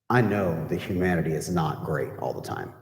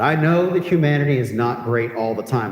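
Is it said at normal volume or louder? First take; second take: normal; louder. First: It is said at normal volume. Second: It is said noticeably louder.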